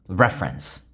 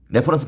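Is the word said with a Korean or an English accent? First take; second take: English; Korean. First: It is said with a strong English pronunciation. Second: It is said with Korean-style pronunciation. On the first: "차라리 굴리려면 저처럼 확실히 굴리시지" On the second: "레퍼런스 발음은 잘 아세요?"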